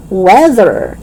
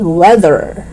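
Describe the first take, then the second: First: "weather" as "wedder"; hard D in "weather". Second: "weather" with buzzing TH; tongue out and humming mid "weather"; voiced TH. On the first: Teacher showing learners the mistake, "weather" with D. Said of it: "is not weather". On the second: Teacher correcting learners, "weather" with voiced TH. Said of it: "T H voiced". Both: Shown as a demonstration.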